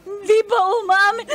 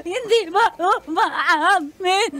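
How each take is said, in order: First: Put-on drunk crying. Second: Put-on drunk laugh-crying. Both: Drunk friend wailing over breakup.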